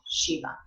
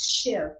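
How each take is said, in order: First: The word ends with a short final vowel. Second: The word ends without the final vowel. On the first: This is how it is said in Sanskrit. "in Sanskrit, you would always pronounce that final A" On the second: This is how it is said in a regional dialect. "her guru drops the A, the short A"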